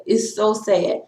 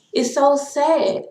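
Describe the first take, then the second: First: Said in the usual way. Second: Drawn-out lament. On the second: Real, not acted. Lamenting racism, repeats phrase.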